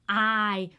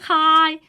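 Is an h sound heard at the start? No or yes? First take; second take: no; yes. First: The word begins with no h sound. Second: The word begins with an h sound. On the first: The speaker calls it right. "We say I" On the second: The speaker calls it wrong. "we don't say hi"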